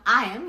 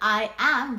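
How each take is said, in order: First: It is said as one contracted word. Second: It is said as two full words.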